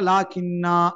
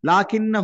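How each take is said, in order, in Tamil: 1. இந்தச் சொல் நிறுத்துவதற்கு முன் நெடில் உயிரில் முடியும். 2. இந்தச் சொல் குறில் உயிரில் முடிந்து தொடர்ந்து செல்லும். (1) "அந்த இடத்துல நீங்க நிறுத்தினீங்கன்னா" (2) "சேர்த்து ஒரு டைம்ல அந்த அலிஃபை என்ன செய்யக்கூடாது, உச்சரிக்க கூடாது"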